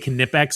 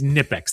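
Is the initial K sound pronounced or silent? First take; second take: pronounced; silent. First: The word begins with a pronounced K sound. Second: The word begins with an N sound, K silent. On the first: "I'm not going to say Knipex" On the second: "The K is silent"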